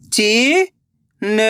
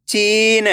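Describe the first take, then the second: First: Very slow, syllables drawn out; slow syllable reading. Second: Said in the usual way. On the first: Shown as a demonstration. Teacher sounding out a word for the class, very slowly. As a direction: spell it out slowly. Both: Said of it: "तो मिलके बन जाएगा".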